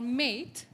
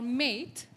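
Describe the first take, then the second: First: It is said in an American accent. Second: It is said in an American accent.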